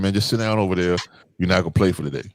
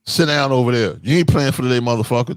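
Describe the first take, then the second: First: Put-on even, calm coach telling a kid to sit; calm instruction. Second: Put-on how the kid heard it, mildly rough; harsh version. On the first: Shown as a demonstration. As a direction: tell him to sit without heat. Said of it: "in a calm voice". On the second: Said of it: "But he heard".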